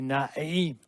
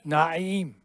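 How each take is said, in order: First: It is said with a strained throat sound. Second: It is said with a strained throat sound.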